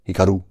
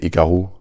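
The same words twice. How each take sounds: First: The name is said with a Japanese accent. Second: The name is said with a French accent. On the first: "if I was just attempting a Japanese accent, it would be Hikaru" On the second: "In French, I would say Hikaru"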